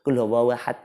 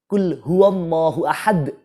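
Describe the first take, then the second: First: The final d is cut off without any bounce. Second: The final d is released with a strong bounce. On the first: The speaker calls it wrong. "Jadi tidak ada pemantulan karena mungkin males" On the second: The speaker calls it right. "kalau membaca yang betul, yang benar, yang fasih"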